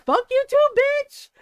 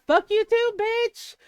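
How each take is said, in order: First: Much higher, louder shouted retort; full yell. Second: Higher, louder retort, half playful; mock yell. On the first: Retold or imitated. Telling off her aunt in front of family, yelling. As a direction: belt it out, really hammed up. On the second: Firing back at her aunt in the fight, mock yell.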